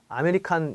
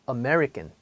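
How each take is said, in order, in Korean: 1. 한국식 발음으로 말해요. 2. 미국식으로 말하고, 한 부분을 길게 늘여요. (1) "아메리칸 이렇게 하죠" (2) "사실 미국에서는 이 발음을 American"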